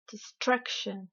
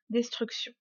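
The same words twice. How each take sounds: First: "destruction" in English, weight on STRUC; teacher's over-stressed "destruction", falling after STRUC; exaggerated English stress. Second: Said in the usual way. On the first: Shown as a demonstration. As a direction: lean on STRUC in "destruction", de-STRUC-shun. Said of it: "je vais délibérément exagérer". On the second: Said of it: "uniquement prononcés en français".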